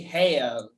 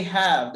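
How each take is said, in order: First: "have" with a drawn-out Southern vowel; Southern pronunciation. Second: Said in the usual way. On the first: Shown as a demonstration. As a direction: stretch "have" into a gliding "hey-uv", Southern style. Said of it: "they say have". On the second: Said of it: "they don't say have".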